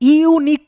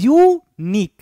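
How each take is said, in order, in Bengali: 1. শুরুর স্বরধ্বনিগুলো ভেঙে আলাদাভাবে উচ্চারিত হয়। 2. শুরুর ধ্বনিগুলো মসৃণভাবে মিশে একটি দলে পরিণত হয়। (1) "ইউনিক কখনো করি না" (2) "করি ইউনিক"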